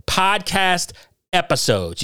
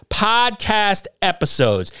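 First: Said in the usual way. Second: "Podcast episodes" spelled out slowly, word by word, stress on "podcast"; slow emphatic correction. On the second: Shown as a demonstration. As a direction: hammer home "Podcast episodes" as a pointed correction. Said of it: "You got that?".

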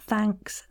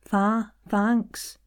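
First: Said in the usual way. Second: "thanks" with an open ah vowel; "thanks" said as "thahnks"; Scottish "thanks". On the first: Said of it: "not thanks". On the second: Shown as a demonstration. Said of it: "ah sound".

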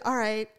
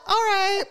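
First: Said in the usual way. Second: High, loud, exaggerated reply; mock strained agreement. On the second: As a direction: squeal it, hammed-up and close to laughter. Escalated repeat of retold reply.

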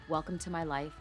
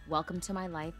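No difference in how they are said.

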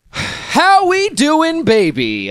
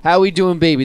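First: Slow, high and loud stretched greeting; catchphrase. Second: Loud, higher quick catchphrase. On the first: Host drawls his podcast catchphrase to the listeners, slow and high. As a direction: savour every word of the catchphrase. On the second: Host repeats his catchphrase to the listeners, loud and quick. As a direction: toss it off punchy. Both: Pretend. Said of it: "I just love saying that".

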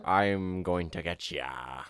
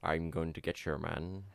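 First: Slow, low pirate growl; lightly voiced pirate drawl. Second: Lightly voiced Sean Connery, low and soft; a hint of Sean Connery drawl; Sean Connery impression. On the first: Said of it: "that's closer". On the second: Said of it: "that's Sean Connery now".

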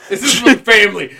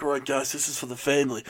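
First: Loud, quick, through laughter; laughing echo. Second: Low, soft movie tough-guy impression; Vin Diesel. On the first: Retold or imitated. Host echoes co-host's movie impression, laughing loudly. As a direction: crack up while repeating the movie line. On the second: Co-host imitating an action star to his crew, low and soft. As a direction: keep it low and quiet, like an action lead. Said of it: "Vin Diesel being like".

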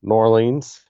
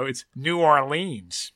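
First: New Orleans with a careful, rising finish; textbook pronunciation. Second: New Orleans said slowly, blended; local pronunciation. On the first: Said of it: "you changed it a little bit there". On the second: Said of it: "No, no". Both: Shown as a demonstration.

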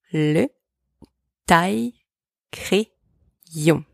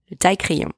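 First: Le, then taille-crayon very slowly; slow teaching model of Le taille-crayon; slow split demo. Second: Said in the usual way. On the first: Shown as a demonstration. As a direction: stretch taille-crayon syllable by syllable. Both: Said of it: "Repeat after me".

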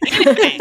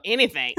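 First: Squeaky high playful repeat; mock high squeal. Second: Said in the usual way. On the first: Host teasing guest seekers, high playful squeal. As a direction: stretch it up into a silly squeal.

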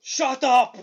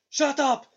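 First: Loud growled shout, laughing through it; Andre impression. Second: Higher, loud mock shout; Andre impression. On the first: Cohost imitating Andre's pre-match interview, loud mock shout. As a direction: bark it out like a giant wrestler, amused. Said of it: "And he goes". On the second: Cohost repeating Andre's promo line, hammed-up loud shout. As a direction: yell it like a giant shutting everyone up. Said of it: "He goes".

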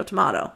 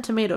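First: "tomato" with an AH in the middle, toh-MAH-toh. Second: "tomato" with a long AY in the middle, toh-MAY-toh. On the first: Girl comparing name mix-ups, "tomato" said toh-MAH-toh. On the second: Girl comparing name mix-ups, "tomato" said toh-MAY-toh. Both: Shown as a demonstration. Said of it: "It's not given tomato, tomato".

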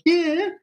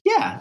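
First: High, mocking "Yeah" with a rise; a high sneering echo of the word; imitating Kevin Costner mocking the guard. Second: Said in the usual way. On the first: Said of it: "mocks him and goes". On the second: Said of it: "he just goes".

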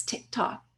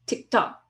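First: Whispered tick tock, like a bomb. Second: Said in the usual way. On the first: Pretend. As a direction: breathe "tick tock" without voice, close in. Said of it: "lean in real close".

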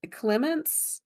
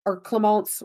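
First: "Clemence" said the English way, KLEM-ents, pitch lifted; English pronunciation. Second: "Clemence" with French vowels, klə-MAHNSS; French-ish pronunciation. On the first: Host reading the mother's name, first anglicised try. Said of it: "or Clemence, whatever, I'm sorry". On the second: Host retrying the name, unsure French correction. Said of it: "whatever, I'm sorry". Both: Shown as a demonstration.

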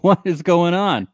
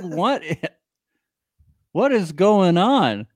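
First: Mock furious. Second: Drawn-out, slower mock disbelief; mock furious. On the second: Repeating what Chaz said, slow and incredulous. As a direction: stretch each word in fake outrage. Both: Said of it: "He's furious".

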